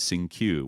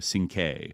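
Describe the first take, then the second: First: The name ends with a 'kyoo' sound. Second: The name ends with a 'kay' sound. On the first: The speaker calls it wrong. "it was mispronounced as Sing Q" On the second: The speaker calls it right. "where it should be, you know, Sing K"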